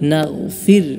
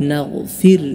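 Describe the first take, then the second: Both takes have the same delivery.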